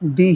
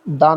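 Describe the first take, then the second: First: The word ends in a long 'ee' vowel. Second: The word ends in a short 'uh' vowel. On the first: The speaker calls it right. "इसका उच्चारण डी ही रखेंगे" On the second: The speaker calls it wrong. "डा नहीं बोलेंगे"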